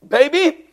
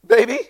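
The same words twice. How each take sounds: First: Longer, higher-than-usual rising call; acted dawning worry, drawn out and questioning; worried mother calling. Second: Quick, very high questioning call; acted little high-pitched check on the baby; short, high, uncertain call; puzzled mother calling. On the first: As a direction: stretch the call upward, anxiously. Second call, baby still not waking. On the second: Mother finds baby will not wake.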